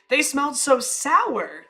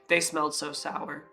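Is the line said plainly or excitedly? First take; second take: excitedly; plainly. First: It is said excitedly, stressing sour. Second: It is said plainly, without excitement.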